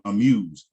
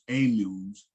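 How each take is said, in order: First: The first vowel is short and rushed. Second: The first vowel is full and unhurried. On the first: The speaker calls it right. "We would say amuse" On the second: The speaker calls it wrong. "we wouldn't say amuse"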